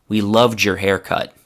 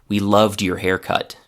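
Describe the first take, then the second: The two takes are said the same way.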